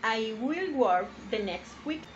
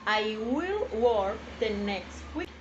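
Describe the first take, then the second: First: Slow, clear "I will work the next week"; each word spaced, "will" lifted; slow example. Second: Even slower "I will work the next week"; slower repeat. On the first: Teacher reading the example slowly to the class. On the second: Teacher repeating the example slowly for students. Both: Shown as a demonstration.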